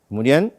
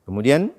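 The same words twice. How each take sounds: Both takes have the same delivery.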